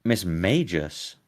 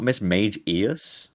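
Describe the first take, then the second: First: MAGUS as "MAY-jus", slowly; two-syllable pronunciation. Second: MAGE EUS pulled apart as "MAYJ-EE-us"; split three-syllable pronunciation. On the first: Querying Crab's version, Magus slowly as "MAY-jus". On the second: Correcting Crab, Mage Eus split into "MAYJ-EE-us". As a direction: slowly separate Mage from Eus. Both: Shown as a demonstration. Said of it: "Not Miss Mage Eus".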